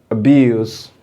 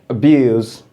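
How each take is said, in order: The two takes are said the same way.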